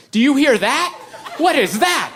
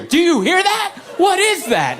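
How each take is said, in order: First: High, urgent hypochondriac wife; imitated panicky questioning; mock alarm. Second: Very high mock shriek of alarm; shrill-pitched, hammed-up insistence; escalating mock panic. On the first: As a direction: pitch it up in exaggerated worry. Wife alarmed by a wrist noise. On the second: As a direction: demand it like a frantic hypochondriac. Wife insists, wrist at his ear.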